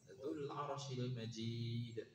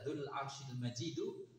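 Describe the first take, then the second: First: The last word ends without a final vowel. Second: The last word ends in an u vowel. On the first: "harokatnya tidak kita baca gitu kan. Kita wakafkan" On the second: "Kalau dibaca Dzul Arsyil Majidu, itu kembalinya ke ke Dzu"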